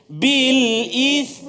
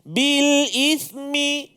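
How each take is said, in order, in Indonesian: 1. Kata berhenti pada konsonan akhir. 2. Konsonan akhir diikuti vokal pendek. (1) "Yang tahan" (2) "Bariskan dulu"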